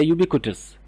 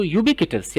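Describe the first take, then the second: First: यूबिक्विटस said as yoo-bi-ku-tus; यूबिक्विटस with "कु" in the middle, yoobikutus; short "ku" variant. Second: यूबिक्विटस said as yoo-bi-ki-tus; यूबिक्विटस with "कि" in the middle, yoobikitus; short "ki" variant. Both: Shown as a demonstration. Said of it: "तो आप इसकी pronunciation को".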